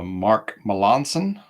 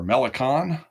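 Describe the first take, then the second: First: The middle syllable sounds like 'lan'. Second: The middle syllable sounds like 'li'. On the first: This is how the speaker says it now. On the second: This is how the speaker used to say it.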